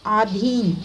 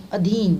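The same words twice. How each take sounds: First: आधीन with a long opening aa; wrong long vowel. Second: Said in the usual way. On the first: Shown as a demonstration. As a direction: stretch the first vowel of आधीन, slowly. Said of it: "नहीं". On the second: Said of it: "आधीन नहीं".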